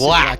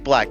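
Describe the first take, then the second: First: The 'ack' ending is hit hard and drawn out. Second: The word is said plainly, with an ordinary vowel. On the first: This is how some outsiders say it. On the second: This is the usual way to say it.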